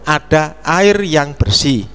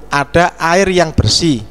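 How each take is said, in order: No difference in how they are said.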